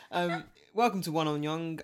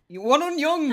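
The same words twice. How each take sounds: First: Said in the usual way. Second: Loud high announcer call; excited shout. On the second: Acted. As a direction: belt out the show title. Host shouts show title.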